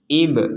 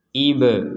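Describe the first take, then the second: First: The b ends with a short clipped bounce. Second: The b is followed by an added e vowel. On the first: The speaker calls it right. "sekedar pantulan" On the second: The speaker calls it wrong. "terdengar e itu gak boleh"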